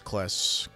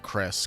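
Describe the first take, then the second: First: The name is said with an L sound. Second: The name is said with an R sound. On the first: The speaker calls it right. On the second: The speaker calls it wrong.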